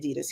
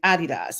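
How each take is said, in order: First: Adidas is said the American way. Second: Adidas is said the European way.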